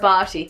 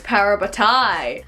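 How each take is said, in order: First: The word is said with three syllables. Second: The word is said with four syllables. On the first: This is the speaker's own habitual pronunciation. "Parvati is always in the heart" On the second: This is how the show pronounces it. "on their T V show it's Parabatai"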